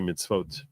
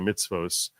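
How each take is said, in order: First: The word ends with a t sound. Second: The word ends with an s sound. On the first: This is how Israelis say it. "Israelis would say mitzvot" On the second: This is how Americans say it. "Americans say mitzvos"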